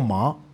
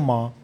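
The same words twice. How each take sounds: First: The syllable is said with a rising pitch. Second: The syllable is said on a level pitch.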